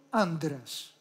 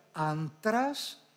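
First: "άντρας" with a voiced nd, an-dras; correct nd pronunciation. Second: "άντρας" with separate n and hard t; spelling pronunciation. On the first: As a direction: say "άντρας" with d in place of t. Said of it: "και προφέρουμε". («άντρας» με νι-ντ) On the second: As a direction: say "άντρας" as written, an-tras. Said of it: "Γράφουμε άντρας". («άντρας» με καθαρό νι-ταφ) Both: Shown as a demonstration.

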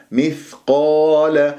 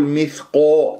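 First: مثقال slowly with heavy but open aa; unrounded qaf. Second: مثقو ending in a long o; rounded qaf, wrong. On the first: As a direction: keep lips flat through مثقال. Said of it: "لا، مثقال". (مثقال بتفخيم دون تكوير) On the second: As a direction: push the lips round on مثقو. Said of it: "لا تكور الشفاه في القاف". (مثقو بتكوير القاف) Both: Shown as a demonstration.

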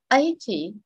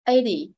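First: Eighty as AY-tee with a crisp T; Eighty with a true T, falling off; first-syllable stress, clear T. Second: Eighty said as AY-dee; Eighty with an American tapped D. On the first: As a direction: stress the start of Eighty and keep the T. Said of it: "Cái thứ hai". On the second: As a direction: soften the T in Eighty to a D. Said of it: "chữ T đây mình chuyển chữ D". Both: Shown as a demonstration.

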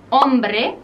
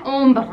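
First: "hombre" as OM-breh, final e sounded; Spanish "hombre", rising at the end; Spanish pronunciation. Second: "ombre" as French ombr', final e silent; French "ombre", throaty r ending, falling; French pronunciation. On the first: Teacher gives the word for man, Spanish pronunciation. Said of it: "En francés no lleva la H". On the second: Teacher shows the word for shade, French pronunciation. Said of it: "se pronuncia". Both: Shown as a demonstration.

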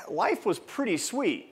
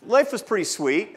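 First: Slow, savoring, a bit higher and softer; savoring it slowly. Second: Said in the usual way. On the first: Shown as a demonstration. Speaker recalling his fiftieth birthday, slow and savoring. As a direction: let each word linger, relishing it.

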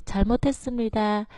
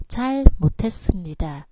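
First: 잘못했습니다 with the pitch dropping from 잘 onward; falling Korean start. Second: 잘못했습니다 with 잘 held high and the pitch dropping on 못; 잘못했습니다 said high on 잘 and falling at 못; high 잘, drop at 못. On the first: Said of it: "Câu đầu thì". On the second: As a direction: keep 잘 up, then fall from 못 in 잘못했습니다. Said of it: "chúng ta xuống giọng ở từ 못". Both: Shown as a demonstration.

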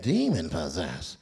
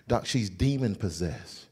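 First: Very low slow demon possessed; incredulous doctor. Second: Low slow she's demon possessed; grave. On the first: Doctor echoing the usher's diagnosis in disbelief. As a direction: echo it back in disbelief. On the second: Usher solemnly telling the doctor the diagnosis. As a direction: lay it down gravely. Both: Retold or imitated.

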